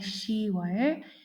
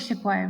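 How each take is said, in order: First: No p sound is heard before 'wol'. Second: A p sound is heard before 'wol'. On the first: The speaker calls it right. "we say 시월" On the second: The speaker calls it wrong. "we don't say 십월"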